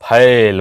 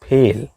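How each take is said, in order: First: The vowel is a broad, open 'ae' sound. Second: The vowel is a plain, closer 'e' sound. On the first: The speaker calls it wrong. "लोग बोलते हैं मैं फैल हो गया हूं, फैल बोलते हैं, जबकि गलत है।" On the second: The speaker calls it right. "वो होता है फेल।"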